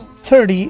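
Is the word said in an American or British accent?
American. It is said in an American accent. "the American accent"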